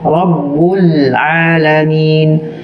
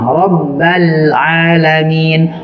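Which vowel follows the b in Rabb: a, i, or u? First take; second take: u; a. First: The b is followed by a u vowel. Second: The b is followed by an a vowel. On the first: "Kita baca ba-nya berharokat kasroh atau dhammah" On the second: "Kita baca ba-nya berharokat kasroh atau dhammah"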